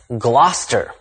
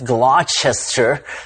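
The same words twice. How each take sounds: First: The name is said in a shortened form. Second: The name is said as it is spelled. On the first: The speaker calls it right. "but actually it's" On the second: The speaker calls it wrong. "The uninitiated might be tempted to pronounce it as"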